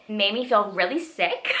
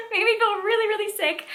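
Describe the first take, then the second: First: Said in the usual way. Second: High, squeaky-pitched laughing repeat; laughing disbelief. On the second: Real, not acted. Reader admitting the book sickened her, laughing in disbelief. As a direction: say it again through a laugh, pitch shooting up.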